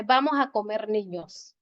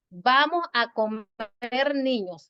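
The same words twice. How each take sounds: First: Said in the usual way. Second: "Vamos a comer niños" read slowly with no break; "Vamos a comer niños" without any comma pause. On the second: Shown as a demonstration. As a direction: say it as one slow run. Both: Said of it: "así, sin coma".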